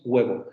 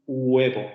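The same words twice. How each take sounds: First: HUEVO with a W glide, between U and G, "WEH-bo"; natural approximant. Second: HUEVO with a separate vowel U, "oo-EH-bo"; wrong, pure U. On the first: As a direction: say HUEVO on one smooth W onset. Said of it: "Decimos huevo". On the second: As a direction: start HUEVO on a full U, no G. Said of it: "pero tampoco decimos huevo". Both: Shown as a demonstration.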